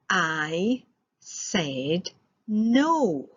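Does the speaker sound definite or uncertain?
definite. It is said in a firm, definite way. The answer is final. "That sounds pretty definite"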